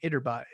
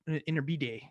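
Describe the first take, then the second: First: The name is pronounced with English sounds. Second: The name is pronounced with Spanish sounds. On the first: The speaker calls it wrong. "Gotta not read it" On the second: The speaker calls it right. "actually pronounce it like it's a Spanish word"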